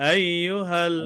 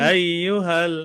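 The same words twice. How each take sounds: Both takes have the same delivery.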